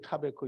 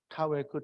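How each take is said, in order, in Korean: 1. 가운데 자음은 v 소리예요. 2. 가운데 자음은 w 소리예요. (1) "베 발음을 할 때도 있어요" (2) "웨 발음을 할 때도 있고"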